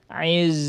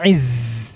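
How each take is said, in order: First: The z is voiced with the airflow held back. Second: The z is breathy with much air escaping. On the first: The speaker calls it right. "Tertahan hembusan anginnya, nggak boleh keluar" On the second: The speaker calls it wrong. "terlalu banyak anginnya"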